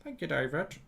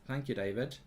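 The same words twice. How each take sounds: First: Soft, put-on American thanks; American accent. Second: Said in the usual way. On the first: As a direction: repeat it quietly in mock American. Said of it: "Your American accent sounds a bit like".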